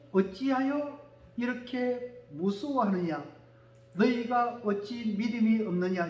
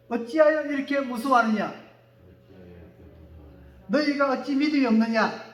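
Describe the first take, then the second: First: Slow reading. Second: Said in the usual way. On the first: Shown as a demonstration. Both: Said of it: "시작".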